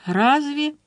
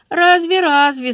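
First: Said in the usual way. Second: Higher, louder mocking echo of Laura; rueful mimicry, throwing her words back; Dolly mimicking Laura with a sorry sigh. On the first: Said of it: "передразнила её Долли". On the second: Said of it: "сокрушённо передразнила её Долли".

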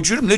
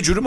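First: "cürümle" with fronted ü vowels; "cürümle", first vowel a rounded front ü; contrasted pronunciation. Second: "cürüm" with a backed first vowel; "cürüm", first syllable closer to "cu"; contrasted pronunciation. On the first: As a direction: say "cürümle" with ü in both syllables. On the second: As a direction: say "cürüm" starting with an oo-like u. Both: Shown as a demonstration. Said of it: "arasında çok fark var değil mi".

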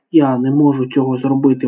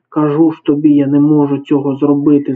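First: Lightly groaned complaint, kept understated; mild groan. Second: Slightly raised, insistent protest; understated wail of refusal; mild yell. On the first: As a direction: groan it mildly, at near-normal level. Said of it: "враз застогнав він". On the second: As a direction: protest loudly, short of a real yell. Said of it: "заволав Джипо". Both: A narrator's reading.

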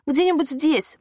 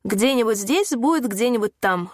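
First: Higher-pitched, mildly croaked plea; a touch of nauseous panic in a croak; hoarse plea. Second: Slow, mildly mocking comeback; joking retort. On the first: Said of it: "прохрипела Лена, борясь с тошнотой и ужасом". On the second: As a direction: drag out a playful brush-off. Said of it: "шутливо парировал водитель". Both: A narrator's reading.

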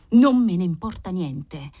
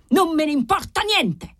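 First: Fierce reply. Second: Much higher yell, pitched right up; the marquis loses his temper and screams it. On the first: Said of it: "replicò ferocemente il marchese". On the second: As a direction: explodes at the servant, high and hard. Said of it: "urlò Formosa". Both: A narrator's reading.

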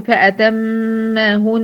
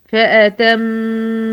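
First: فأتمهن with the final نون cut short, no full nasal hold; wrong pronunciation. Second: فأتمهن with the doubled ميم and نون fully nasalised; correct pronunciation. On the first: Teacher showing the mistake to avoid, clipped ending. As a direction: clip فأتمهن without its full ghunna. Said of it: "مش هقول فأتمهن". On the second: Teacher showing the correct reading, full nasal hold. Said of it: "لا هقول فأتمهن". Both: Shown as a demonstration.

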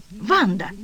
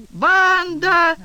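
First: Said in the usual way. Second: A full-throated yell, much higher and louder; husband bellowing for his wife at full force. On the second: A narrator's reading. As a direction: roar the wife's name across the flat. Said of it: "заорал мужичонка с такой силой".

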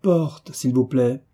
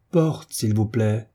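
First: High-pitched call, only mildly projected. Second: Slow, drawn-out doorman's call, lightly projected; voix de stentor. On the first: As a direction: call for the door on a high first word. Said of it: "une nouvelle voix cria du fond de la voûte". (appel lancé d'une voix aiguë, sans forcer) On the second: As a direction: stretch it out like a stentor's announcement, without real shouting. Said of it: "cria une voix de stentor". (appel de stentor, lent et contenu) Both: A narrator's reading.

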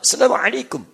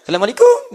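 First: Imitated Arab accent, higher pitched greeting. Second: Higher, louder mock Indian accent. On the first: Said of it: "kayak orang Arab". (logat Arab tiruan) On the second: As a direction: greet in an imitated Indian lilt, rising at the end. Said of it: "Orang India ketahuan". (logat India tiruan) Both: Shown as a demonstration.

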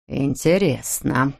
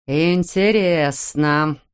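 First: Slow, lower, ominous drawl; lightly voiced threatening father; menacing drawl. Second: Very slow, ominous drawl; lightly voiced threatening father; menacing drawl. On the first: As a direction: let the word hang like a threat. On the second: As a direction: stretch the word out while pacing. Father repeats it pacing.

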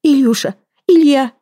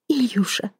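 First: Much higher, louder desperate cry. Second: Breathless unvoiced whisper; whispered name. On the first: Woman rushing to her lover, crying his name out loud. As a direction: shout his name as you rush to him. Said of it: "и закричала". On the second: Woman bent over her gagged lover, whispering his name. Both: A narrator's reading.

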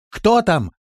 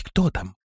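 First: High, loud call. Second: Mildly anxious, held-back question; trembling. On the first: Лирея calling into the dark cellar, shouted. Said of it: "крикнула она в темноту". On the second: Лирея cautioning her friend at the cellar, mildly trembling. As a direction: say it with a touch of nerves. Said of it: "сказала она дрожащим голосом". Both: A narrator's reading.

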